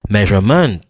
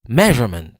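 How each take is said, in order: First: The stress is on the third syllable. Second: The stress is on the first syllable. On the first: The speaker calls it wrong. "Si m'ta prononce maintenant plus fort que tout" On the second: The speaker calls it right. "C'est mais qui prononce plus fort que tout l'autre yo"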